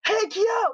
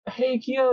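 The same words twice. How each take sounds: First: High-pitched imitated call, held back in volume; mock yelling. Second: Said in the usual way. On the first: Momiji pestering resting Kyo, high mock yell. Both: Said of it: "He starts yelling".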